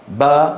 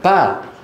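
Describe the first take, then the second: First: The b is voiced with no escaping air. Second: The b is released with a puff of air. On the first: "ما معها هواء يخرج" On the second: "هذه فيها في معها هواء يخرج"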